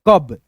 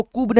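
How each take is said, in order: First: कब with a short "uh" vowel, like English "cub"; short a sound. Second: कूब with an "oo" vowel; mistaken u vowel. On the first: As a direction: say कब with अ, not u. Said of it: "अ का sound". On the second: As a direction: say कूब with the u sound, as a misreading. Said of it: "इसको कूब नहीं पढ़ेंगे". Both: Shown as a demonstration.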